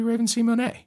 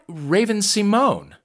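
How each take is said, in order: First: The final E of Simone is pronounced. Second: The final E of Simone is silent. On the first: The speaker calls it right. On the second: The speaker calls it wrong.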